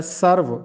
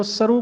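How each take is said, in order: First: سرو said "sarv", closed on a v sound; teacher's سرو ending on a firm v; سرو as one syllable, "sarv"; correct pronunciation. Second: سرو said "sar-oo", ending in a vowel; the everyday سرو with a long "oo" at the end; سرو ending on "oo", as most people say it; common wrong pronunciation. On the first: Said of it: "یہ درست تلفظ ہے". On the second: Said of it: "جو کہ غلط ہے". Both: Shown as a demonstration.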